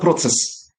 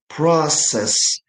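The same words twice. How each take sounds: First: It is said with a ts sound. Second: It is said with a plain s sound. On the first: The speaker calls it wrong. "It's not process. Stop saying ts in this word" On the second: The speaker calls it right. "In English, we have process"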